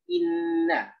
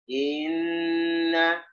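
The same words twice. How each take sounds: First: The first vowel is short before the doubled n. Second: The first vowel is drawn out before the n. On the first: The speaker calls it right. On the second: The speaker calls it wrong. "Kalau kita kelambatan"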